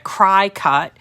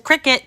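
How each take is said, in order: First: The first syllable sounds like "cry". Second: The first syllable sounds like "crick". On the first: The speaker calls it wrong. "mispronouncing it and calling it a cry cut" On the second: The speaker calls it right. "so it's a cricket"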